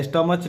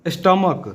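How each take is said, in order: First: स्टमच with a ch sound at the end, the wrong way. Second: स्टमक with a clear k sound at the end; correct k ending. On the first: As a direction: say स्टमच ending in च, as a mistake. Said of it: "स्टमच नहीं". (स्टमच को अंत में च की ध्वनि से गलत उच्चारण) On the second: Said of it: "क, इसको क पढ़ते हैं". (स्टमक को अंत में साफ़ क की ध्वनि से सही उच्चारण) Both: Shown as a demonstration.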